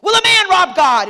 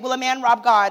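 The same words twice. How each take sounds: First: It is read in a scary, menacing tone. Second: It is read in a plain, calm tone.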